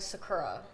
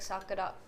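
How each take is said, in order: First: The name is said with an English pronunciation. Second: The name is said with a Japanese pronunciation. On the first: This is how the speaker usually goes by it. "I don't know why I've gone by Sakura" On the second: This is the original pronunciation in the source language. "Japanese is like Sakura"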